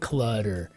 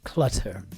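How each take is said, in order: First: The t is a soft d-like flap. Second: The t is a crisp, clear t. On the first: "in America we have a D ... we would say clutter, almost a C U L C L U D D E" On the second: "versus British English clutter"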